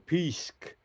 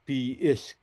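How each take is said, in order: First: The word is said in a shortened form. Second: The word is said in its full form. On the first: "you could shorten it to" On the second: "but the actual pronunciation is"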